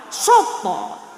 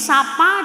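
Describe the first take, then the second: First: Both vowels are pronounced as a rounded 'o'. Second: Both vowels are pronounced as an open 'a'. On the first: This is the Surabaya dialect. "di sana sopo" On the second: This is the local dialect. "Kalau di sini sapa"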